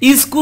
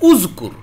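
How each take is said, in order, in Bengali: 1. শব্দটি i স্বরধ্বনি দিয়ে শুরু হয়। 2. শব্দটি u স্বরধ্বনি দিয়ে শুরু হয়। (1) "ইজকুর হবে না" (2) "এখানে আপনি পেশ দিবেন"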